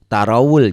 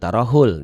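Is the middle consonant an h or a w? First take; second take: w; h. First: The middle consonant is a w sound. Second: The middle consonant is an h sound. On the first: The speaker calls it right. "ini waw ya" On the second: The speaker calls it wrong. "bukan tarahul"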